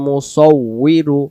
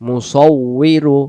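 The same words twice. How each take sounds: The two takes are said the same way.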